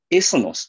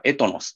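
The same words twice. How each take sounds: First: エスノス with a "su" in the middle; th read as S. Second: エトノス with a "to" in the middle; th read as T. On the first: Teacher giving listeners one reading of the Greek word, エスノス with "su". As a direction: say エスノス, second sound "su". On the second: Teacher giving listeners the other reading of the Greek word, エトノス with "to". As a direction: say エトノス, second sound "to". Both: Shown as a demonstration. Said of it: "と発音される".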